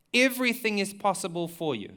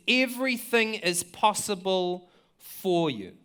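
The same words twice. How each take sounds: First: Said in the usual way. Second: Drawn-out, earnest, set apart from the plain voice; slow quoted cry to God. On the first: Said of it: "repeats the quote". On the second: Retold or imitated. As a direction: voice Jesus crying it out slowly to the Father. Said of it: "he cried out".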